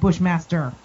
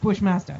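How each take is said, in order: First: The final R is clearly pronounced. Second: The final R is dropped, New York style. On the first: The speaker calls it wrong. "not Bushmaster" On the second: The speaker calls it right. "Every New Yorker, it's Bushmaster"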